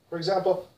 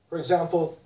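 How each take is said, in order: The two takes are said the same way.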